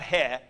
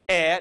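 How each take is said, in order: First: The vowel is said with an h before it. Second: The vowel is said with no h before it. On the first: The speaker calls it wrong. "not he" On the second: The speaker calls it right. "that doesn't give you any pronunciation at all"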